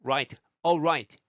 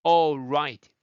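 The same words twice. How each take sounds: First: All right with a dark L and rounded R, slow and separated; correct all right. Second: All right with a plain Korean-style L, like 오라이; wrong all right. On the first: Teacher modeling the right all right for students slowly. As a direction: break after all, then right starting like 우. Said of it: "R 사운드, 에이엘 끊고 right예요". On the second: Teacher showing students the wrong all right, 오라이 style. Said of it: "all right 하지 마세요". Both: Shown as a demonstration.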